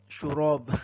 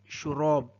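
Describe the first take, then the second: The two takes are said the same way.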